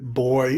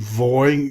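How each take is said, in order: First: It begins with a hard B sound. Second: It begins with a softer V sound. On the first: The letter has a dot in it. "So originally this was B" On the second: The letter has no dot in it. "kind of a wetter version of that if you don't have the um, dot"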